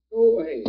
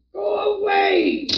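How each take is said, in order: First: Said in the usual way. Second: High, slow, sobbing cry of terror; anguished crying shout. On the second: Acted. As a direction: cry it out in panic, drawn out. Old man crying out in sleep.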